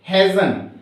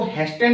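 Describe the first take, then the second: First: "हेजन" as hay-zun, no T; "हेजन", Z straight into N; silent T. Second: "हेस्टन" with a clear ST in the middle; wrong-way "हेस्टन", T audible; T sounded. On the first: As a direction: say "हेजन" leaving out the T. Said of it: "टी को हम silent छोड़ते हैं". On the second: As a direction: say "हेस्टन" pronouncing the T. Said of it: "not इसको हेस्टन नहीं पढ़ेंगे". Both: Shown as a demonstration.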